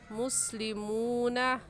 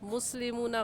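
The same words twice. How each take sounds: First: The 'oo' vowel is drawn out, held longer. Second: The 'oo' vowel is said short, not drawn out. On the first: The speaker calls it right. "सही है मुस्लिमूना" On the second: The speaker calls it wrong. "मुस्लिमूना गलत है"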